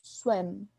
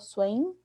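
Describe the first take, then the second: First: The word ends with the lips closed. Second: The word ends with an N sound. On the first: The speaker calls it right. "é um som que você junta os lábios no final" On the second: The speaker calls it wrong. "eu não falo swim como se fosse um N"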